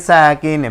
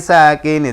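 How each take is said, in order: Both takes have the same delivery.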